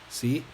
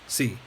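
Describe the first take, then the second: First: The pitch rises through the word. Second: The pitch falls through the word.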